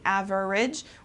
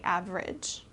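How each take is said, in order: First: Every syllable is pronounced separately and fully. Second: The syllables are run together into fewer sounds. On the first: The speaker calls it wrong. "pronouncing every syllable" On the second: The speaker calls it right. "we kind of put them together"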